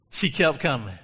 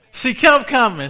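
First: Said in the usual way. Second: Shouted high and loud; preacher's ringing shout; loud preaching cry. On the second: Shown as a demonstration. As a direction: hit it hard for the church.

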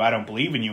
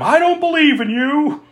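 First: Said in the usual way. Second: High mock yell of defiance; mild mock defiant yell. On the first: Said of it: "flat out saying". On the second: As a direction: shout it at the monster. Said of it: "She yells at him".

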